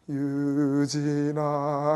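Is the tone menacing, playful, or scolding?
menacing. The name is called in a low, menacing tone. Something frightening is coming. "살짝 무서울 것 같은 그런 느낌이 드는 거예요"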